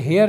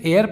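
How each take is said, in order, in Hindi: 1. यह शब्द h ध्वनि से शुरू होता है। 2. यह शब्द स्वर ध्वनि से शुरू होता है। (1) "इसे हेयर नहीं" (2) "इसे एयर पढ़ेंगे"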